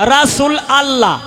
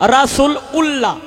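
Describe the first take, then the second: First: The ending is pronounced as allah. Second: The ending is pronounced as ullah. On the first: "আবার অনেকেই কয় রাসূল আল্লাহ" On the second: "অনেকেই কয় রাসূল উল্লাহ"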